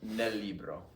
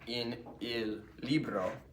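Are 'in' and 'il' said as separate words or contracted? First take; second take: contracted; separate. First: The words in and il merge into nel. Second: The words in and il are said separately. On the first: The speaker calls it right. "It's smoother and faster to say like that" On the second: The speaker calls it wrong. "you'd say not in il libro"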